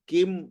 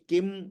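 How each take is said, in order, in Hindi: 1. शब्द 'kim' m ध्वनि से खत्म होता है। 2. शब्द 'kim' m ध्वनि से खत्म होता है।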